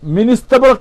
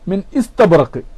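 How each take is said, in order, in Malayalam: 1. ഗ്ലോട്ടൽ സ്റ്റോപ് ഒഴിവാക്കപ്പെടുന്നു, രണ്ടു വാക്കുകളെ ബന്ധിപ്പിക്കുന്നു. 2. istabraq ന് മുമ്പുള്ള ഗ്ലോട്ടൽ സ്റ്റോപ് വ്യക്തമായി ഉച്ചരിക്കപ്പെടുന്നു. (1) "എന്ന് ഓതാൻ പാടില്ല" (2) "ഖത്ഇന്റെ ഹംസ ആയിട്ട് തന്നെ ഇസ്തബറക്ക് തന്നെയാണ് ഉച്ചരിക്കേണ്ടത്"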